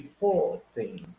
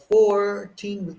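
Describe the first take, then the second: First: Put-on "fourteen" as "faw-teen", R dropped; British "fourteen", open first syllable and clear T. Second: "fourteen" with the R sounded; American "fourteen", strong R in the first syllable. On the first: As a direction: say "fourteen" without its R. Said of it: "they say fourteen". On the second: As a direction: curl the R in "fourteen". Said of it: "Four instead of fourteen". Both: Shown as a demonstration.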